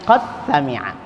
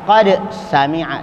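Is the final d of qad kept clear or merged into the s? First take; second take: merged; clear. First: The d merges into the following s. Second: The d is pronounced clearly before the s. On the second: "tidak dibaca"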